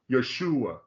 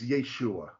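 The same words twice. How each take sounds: First: Yeshua repeated as yo-SHOO-ah; common mispronunciation. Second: Yeshua said slowly as YAY-shoo-ah; correct pronunciation. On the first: Retold or imitated. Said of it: "always says Yeshua". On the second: Shown as a demonstration. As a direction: insist on Yeshua with a long "yay". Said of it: "But it's always".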